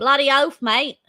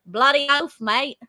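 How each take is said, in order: First: Weak attempt at Aussie accent; a shaky try at broad Aussie; aussie tradesman. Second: Second try at broad Aussie; aussie tradesman. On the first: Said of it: "No, no, that was terrible". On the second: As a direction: say it like an Aussie bloke. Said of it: "Try again". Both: Shown as a demonstration.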